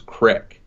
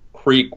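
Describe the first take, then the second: First: The vowel is a short 'i' sound. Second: The vowel is a long 'ee' sound. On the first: The speaker calls it wrong. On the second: The speaker calls it right.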